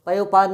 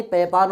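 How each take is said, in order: First: पयोपान with "yo" in the middle; wrong o form. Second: पयपान as pay-paan; no o sound. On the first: Teacher showing the rejected form, पयोपान with o. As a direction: say पयोपान as pa-yo-paan. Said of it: "नहीं". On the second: Teacher giving the corrected form, पयपान without o. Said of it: "होता है". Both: Shown as a demonstration.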